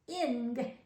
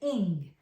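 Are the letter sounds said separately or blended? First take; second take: separately; blended. First: The letter sounds are said apart. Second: The letter sounds are said as one unit. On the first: The speaker calls it wrong. "Doesn't really say ing" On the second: The speaker calls it right. "says ing"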